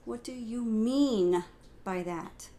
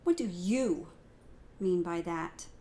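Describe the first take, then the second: First: The emphasis falls on the word mean. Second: The emphasis falls on the word you.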